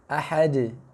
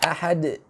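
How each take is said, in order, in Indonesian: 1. Bunyi gema terakhir dilepas secara terbuka. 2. Bunyi gema terakhir dihentikan dengan hentian glotal.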